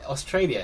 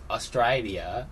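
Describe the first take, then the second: First: It is said with a plain, non-Australian vowel. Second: It is said with Australian-accented vowels. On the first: "they say Australian Australia as" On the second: "as Austra- Australia"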